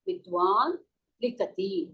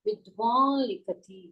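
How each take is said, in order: First: The final n stays a plain n sound. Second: The final n becomes a nasalized l sound. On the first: "இப்ப இல்லாட்டா நம்ம எப்படி சொல்லுவோம்?" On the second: "லக்காரத்துக்கு மேல நம்ம வந்து சந்திரபிந்து போடுவோம்"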